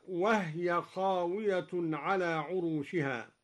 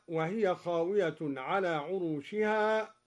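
First: وهي said as wahya, ha with sukun; slow, وهي clipped to two syllables; silent ha in wahya. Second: Said in the usual way. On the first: Shown as a demonstration. Teacher showing Duri's reading with sukun on ha. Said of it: "هكذا". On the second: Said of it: "قرأ الدوري بإسكان الهاء".

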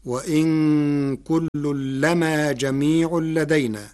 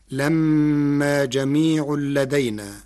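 First: Recited with لما as lamā, a single light meem; Warsh reading, light meem. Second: Recited slowly with لما as lammā, the meem doubled and held; Hafs reading, doubled meem. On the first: Teacher showing how Warsh reads the verse, slow recitation. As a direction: chant لما with a short, undoubled meem. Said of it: "فتصير". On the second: Teacher reciting the Hafs reading before showing the Warsh one, slow and measured. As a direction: chant لما جميع لدينا with a long doubled meem in لمّا. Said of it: "قرأ ورش كلمة لما بتخفيف الميم". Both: Shown as a demonstration.

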